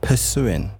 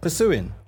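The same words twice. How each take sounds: First: The first 'pur' syllable is said fully and clearly. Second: The first 'pur' syllable is weak and unclear. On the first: The speaker calls it right. "Pronounce the P-U-R. ... That's a lot better" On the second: The speaker calls it wrong. "But your addiction is awful"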